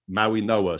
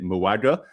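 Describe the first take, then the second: First: The name is said in separate parts, Maui Noah. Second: The name is said as two blended syllables, Muaga. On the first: The speaker calls it right. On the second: The speaker calls it wrong.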